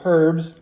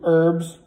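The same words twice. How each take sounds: First: The word starts with an h sound. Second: The word starts without an h sound.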